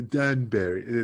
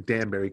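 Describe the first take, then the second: First: Slow mimicry of the host's accent; drawn-out Danbury in a teasing borrowed accent; imitating host's accent. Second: Said in the usual way. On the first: Guest teasing host over the town's name, mock accent. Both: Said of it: "with your accent".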